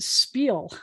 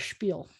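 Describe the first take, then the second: First: The word begins with a plain s sound. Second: The word begins with a sh sound. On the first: The speaker calls it wrong. "they'll often pronounce it spiel. And that drives me crazy" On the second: The speaker calls it right. "It's a spiel, like a schmooze"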